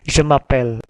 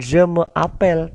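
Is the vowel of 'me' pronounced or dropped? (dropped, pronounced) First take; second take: dropped; pronounced. First: The vowel of 'me' is dropped and merged. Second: The vowel of 'me' is fully pronounced. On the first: The speaker calls it right. "e e-nya itu hilang" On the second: The speaker calls it wrong. "Bukan je me appelle"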